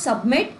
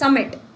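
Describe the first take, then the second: First: A b sound is heard in the middle. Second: No b sound is heard in the middle. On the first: The speaker calls it wrong. "It's not सबमिट" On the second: The speaker calls it right. "It's समिट"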